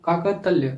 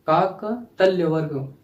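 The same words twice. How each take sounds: First: Said in the usual way. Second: Slow clear term. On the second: Shown as a demonstration.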